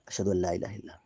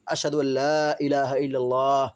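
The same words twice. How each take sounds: First: It is said in a quiet voice. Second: It is said in a loud voice.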